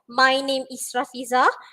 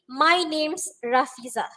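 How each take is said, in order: First: The word 'is' is said as a full separate word. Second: The word 'is' is shortened to an s sound.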